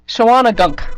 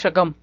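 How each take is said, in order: First: The name is said long, with every syllable sounded. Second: The name is said short, with few syllables. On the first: "But I know that's not how you pronounce it" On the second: "I really tried to pronounce it correctly"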